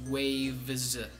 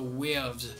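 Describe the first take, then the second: First: It is said in an American accent. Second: It is said in a Jamaican accent. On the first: "in American, waves has an A and an E" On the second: "So in Jamaican, it's more of an air and an uh"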